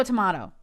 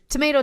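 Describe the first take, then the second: First: "tomato" with a falling end, second take. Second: "tomato" with a rising end, first of two takes. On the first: Contrasting two ways to say it, "tomato" falling. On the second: Contrasting two ways to say it, "tomato" rising. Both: Shown as a demonstration. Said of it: "it's all the same".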